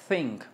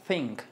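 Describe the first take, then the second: No difference in how they are said.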